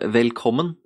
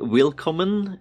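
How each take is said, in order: First: The first vowel sounds like 'e'. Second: The first vowel sounds like 'i'. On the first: The speaker calls it right. "It's uh, velkommen, not vi" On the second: The speaker calls it wrong. "there's no wi- willkommen"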